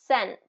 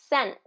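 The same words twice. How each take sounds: No difference in how they are said.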